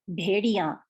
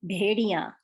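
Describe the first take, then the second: Both takes have the same delivery.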